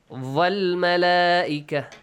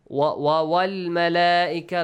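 First: The word begins with a v-like sound. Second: The word begins with a w sound. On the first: The speaker calls it wrong. "Make sure you don't produce a sound like V in English. ... no" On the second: The speaker calls it right. "like you say, what? When? Wow"

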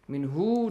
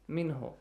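First: The vowel after the h is stretched long. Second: The vowel after the h is kept short. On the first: The speaker calls it wrong. "stretch the sound of ha here. Min hu, don't say" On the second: The speaker calls it right. "Min ho, that's easy"

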